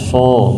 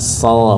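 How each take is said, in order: First: The sound is made with pouted, rounded lips. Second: The sound is thick with lips unrounded. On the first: The speaker calls it wrong. "bukan dengan memonyongkan bibir" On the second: The speaker calls it right. "tanpa memonyongkan bibir"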